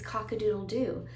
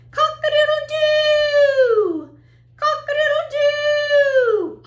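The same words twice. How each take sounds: First: Said in the usual way. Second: Very high, loud crow with a long final "doo"; rooster crow. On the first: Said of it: "he says". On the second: Shown as a demonstration. Teacher playing the rooster for children, loud high crowing. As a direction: crow it out like a rooster, stretching the end. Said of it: "Let's listen to that".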